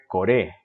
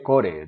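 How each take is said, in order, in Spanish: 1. El acento cae en la segunda sílaba. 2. El acento cae en la primera sílaba. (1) "se debe acentuar acá, en la segunda sílaba" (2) "No dije core"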